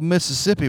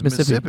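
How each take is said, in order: First: The word is said as it is spelled. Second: The word is said with a local Mississippi pronunciation. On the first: The speaker calls it wrong. "It's spelled Mississippi" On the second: The speaker calls it right. "if you're from Mississippi, it's Mississippi"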